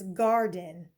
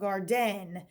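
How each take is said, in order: First: The stress is on the first syllable. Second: The stress is on the second syllable. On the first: The speaker calls it right. "She says garden" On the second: The speaker calls it wrong. "not garden"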